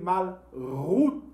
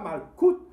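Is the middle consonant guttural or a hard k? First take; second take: guttural; hard k. First: The middle consonant is a throaty guttural rasp. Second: The middle consonant is a hard k sound. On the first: The speaker calls it right. "comme une gutturale" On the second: The speaker calls it wrong. "ce n'est pas Malkout"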